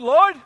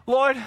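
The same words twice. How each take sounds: First: Loud, high cry to God; raised voice. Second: Firm, moderately raised address to God; contained but emphatic appeal; restrained raised voice. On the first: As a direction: call out sharply in acted complaint. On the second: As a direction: call out, holding back from a full shout. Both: Acted. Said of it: "let me not raise my voice".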